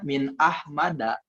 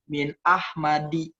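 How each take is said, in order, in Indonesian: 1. Kata terakhir berakhir dengan vokal a. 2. Kata terakhir berakhir dengan vokal i. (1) "Harusnya min Ahmada" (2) "itu salah"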